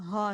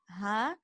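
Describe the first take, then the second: First: The ha is heavy, with too much sound. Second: The ha is light and airy. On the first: The speaker calls it wrong. "Not ha" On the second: The speaker calls it right. "it's more of a airy ha. Just ha"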